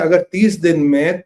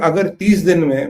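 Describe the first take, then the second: First: It is said in the speaker's normal accent. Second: It is said in an imitated Bangladeshi accent.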